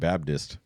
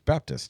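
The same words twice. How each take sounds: First: The middle consonant is a 'd' sound. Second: The middle consonant is a clear 'p' sound. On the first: The speaker calls it wrong. "Everybody else throws a D that doesn't exist" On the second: The speaker calls it right. "I feel like I'm the only person who uses the P in there"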